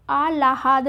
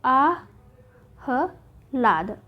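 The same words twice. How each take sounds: First: आह्लाद with a full "ha" after l; आह्लाद, l before h; wrong form shown. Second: आहलाद very slowly as ā... ha... lād; आहलाद, h before l, with gaps; correct form, spelled out. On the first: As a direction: say आह्लाद as ā-lā-hād. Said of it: "नहीं होगा". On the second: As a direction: break आहलाद into spaced syllables. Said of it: "क्या होगा?". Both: Shown as a demonstration.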